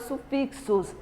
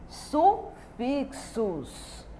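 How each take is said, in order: First: Said in the usual way. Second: "sufixos" stretched out with a gap after "su"; syllable by syllable. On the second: Shown as a demonstration. Teacher announces the next topic to pupils, syllable by syllable. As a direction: break "sufixos" slowly into pieces.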